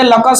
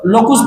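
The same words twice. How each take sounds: First: Said in the usual way. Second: लोकुस with an "oo" in the second syllable; students' mispronunciation. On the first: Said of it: "locus को लोकुस पढ़ते हैं". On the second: Retold or imitated. Teacher imitating how some children read locus, mispronounced as लोकुस. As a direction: misread it as लोकुस, "lo-koos". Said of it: "कुछ बच्चे locus को लोकुस पढ़ते हैं".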